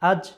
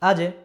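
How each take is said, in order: First: The final consonant ends plainly without a bounce. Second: The final consonant is released with an echoing bounce. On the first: The speaker calls it wrong. "যদি কলকলা না হতো তাহলে উচ্চারণ কি হতো? আজ।" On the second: The speaker calls it right. "একটু ধাক্কা দিয়ে, একটু ঝটকা দিয়ে পড়তে হয়"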